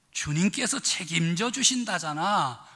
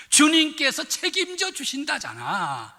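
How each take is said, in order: First: "주님께서 책임져 주신다잖아" in a mild Pyongan tone; a relaxed, falling Pyongan reassurance; Pyongan dialect. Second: "주님께서 책임져 주신다잖아" said higher and louder, with "주님께서" stressed; emphatic reassurance. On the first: Retold or imitated. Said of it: "평안도 버전은 어떻게 됐나?". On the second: Shown as a demonstration. Pastor summing up the sermon for the congregation, raising the reassurance. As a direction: hammer home the reassurance. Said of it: "오늘의 말씀을 정리해 봤어요".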